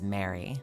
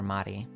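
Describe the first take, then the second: First: The name is pronounced the English way. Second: The name is pronounced the Japanese way. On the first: "he had as Mary" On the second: "the more Japanese pronunciation"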